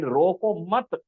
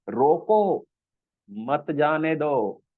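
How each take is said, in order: First: "रोको मत" joined and slow, then a stop; pause after मत. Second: "रोको" falls, a pause, then "मत जाने दो"; pause after रोको. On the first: Teacher contrasts the other meaning, pause after मत. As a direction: hold "रोको मत" as one unit before breaking. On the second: Teacher explains do not let him go, pause after रोको. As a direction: break firmly after "रोको", keep "मत जाने दो" as one phrase. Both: Shown as a demonstration. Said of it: "कहाँ रुकने से बिल्कुल उल्टा".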